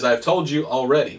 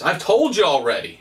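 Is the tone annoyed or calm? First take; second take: calm; annoyed. First: The line is said in a calm tone. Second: The line is said in an annoyed tone. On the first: The speaker simply reads the text as written. "now it says" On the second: The man is losing patience with being asked again. "but I like to read it like this"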